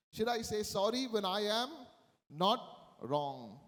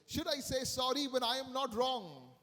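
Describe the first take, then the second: First: Rising to "am", a break, then "not wrong" dropped in pitch; pause before NOT WRONG. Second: Said in the usual way. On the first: Retold or imitated. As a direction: repeat it pointedly, setting "not wrong" apart. Repeats the question for emphasis.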